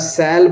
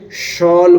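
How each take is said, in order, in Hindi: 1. शब्द की शुरुआत s ध्वनि से होती है। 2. शब्द की शुरुआत sh ध्वनि से होती है। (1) "अगर आप सैल बोलते हैं तो गलत है" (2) "शॉल बोलेंगे"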